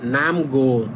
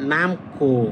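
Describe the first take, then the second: First: The second syllable starts with a plain g sound. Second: The second syllable starts with a tense k sound.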